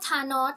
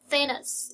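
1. เริ่มด้วยเสียง 't' ธรรมดา 2. เริ่มด้วยเสียง 'th' ลิ้นยื่นออกมา (1) "เวอร์ชันไทยเราก็รู้แล้ว" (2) "ภาษาอังกฤษเสียง TH ค่ะแลบนี้มานิดนึง"

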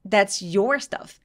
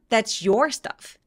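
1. 강세는 your 단어에 옵니다. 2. 강세는 your 단어에 옵니다.

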